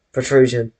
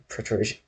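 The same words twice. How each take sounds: First: Protrusion said clearly, louder, with a falling close; confident word. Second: Quiet, tentative protrusion; unsure word try. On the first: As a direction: protrusion announced firmly like a new word. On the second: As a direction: protrusion said softly, feeling out the word. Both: Shown as a demonstration. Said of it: "I think that's a word of the stream".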